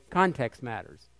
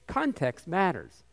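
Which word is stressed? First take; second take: Context; matters. First: The stress falls on "context". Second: The stress falls on "matters".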